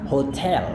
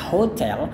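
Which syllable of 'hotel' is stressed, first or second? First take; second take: second; first. First: The stress is on the second syllable. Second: The stress is on the first syllable. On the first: "atau Anda bisa tekan kayak kita di Indonesia" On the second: "kita bisa tekankan di bagian depannya hotel"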